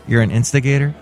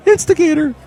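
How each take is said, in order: First: Said in the usual way. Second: "Instigator" squeaked very high; Floyd voice. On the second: Acted. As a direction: pipe "Instigator" up high like the floor man. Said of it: "I'm Floyd the Floor Man".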